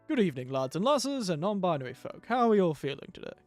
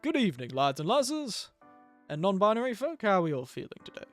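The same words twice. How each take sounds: First: The voice has a plainer, less crisp top end. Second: The voice has a brighter, crisper top end. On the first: "Then I turn it off" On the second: "This is with air on"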